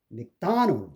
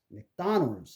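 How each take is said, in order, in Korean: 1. 둘째 음절에 강세가 있고, 나머지는 약해요. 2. 둘째 음절에 강세가 있고, 나머지는 약해요.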